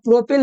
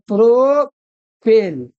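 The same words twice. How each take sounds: First: Said in the usual way. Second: प्रोपेल drawn out very slowly, syllable by syllable; slow dictation. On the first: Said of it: "तो तीन के लिए कितना होता है". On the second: Shown as a demonstration. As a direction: stretch प्रोपेल out as if writing it on the board. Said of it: "प्रोपेल ना".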